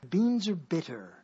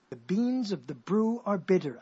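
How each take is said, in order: First: Said in the usual way. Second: Slow, deliberate "beans of the brew are bitter"; tongue twister said slowly. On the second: Shown as a demonstration. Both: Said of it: "I'm making up a tongue twister".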